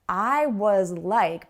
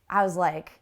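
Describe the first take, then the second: First: Every word is said fully and clearly. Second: The sounds are reduced and run together.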